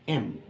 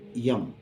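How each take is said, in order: First: The name begins directly with a vowel sound. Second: The name begins with an added y sound. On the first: The speaker calls it right. "Then next comes M" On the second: The speaker calls it wrong. "not yum"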